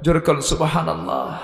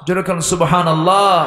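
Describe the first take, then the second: First: Said in the usual way. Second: Raised call, higher on সুবহানাল্লাহ with a falling end; louder call. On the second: Real, not acted. Preacher asking crowd to say সুবহানাল্লাহ, raised ringing call.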